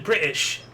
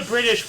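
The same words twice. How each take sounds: First: "British" said with the T dropped; "British" with a catch replacing the T; British without the T. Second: Said in the usual way. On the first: Retold or imitated. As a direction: imitate Brits swallowing the T in "British". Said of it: "there's no T". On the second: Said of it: "why do the British pronounce it".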